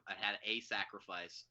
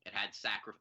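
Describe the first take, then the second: First: Slow, with "a" said as a full "ay"; stress on A. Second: Said in the usual way. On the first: Shown as a demonstration. Friend correcting himself on the film, stressed "a". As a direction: lean on "a" as its own word.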